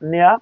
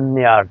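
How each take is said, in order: First: The final r sound is dropped. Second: The final r sound is pronounced. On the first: "ব্রিটিশরা নেয়া" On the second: "আমেরিকানরা নেয়ার"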